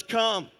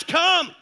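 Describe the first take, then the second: First: Said in the usual way. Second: Loud, raised preacher's call; crying out. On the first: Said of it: "who says". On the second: Acted. Preacher voicing the Lord's summons to the congregation, crying out. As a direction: cry it out as a summons from the Lord. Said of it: "This is the Lord who cries".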